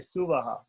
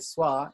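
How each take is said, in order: First: The word is said as three syllables. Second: The word is said as one short syllable. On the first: This is the South Indian pronunciation. "In South India, they say Suvaha" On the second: This is the North Indian pronunciation. "In North India, they say Swa"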